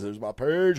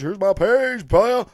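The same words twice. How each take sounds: First: Said in the usual way. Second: "Here's my page, player" lifted a touch higher, cocky; playful swagger. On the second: Pretend. Host shows viewers his page, playful swagger. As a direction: show off the page like a hustler.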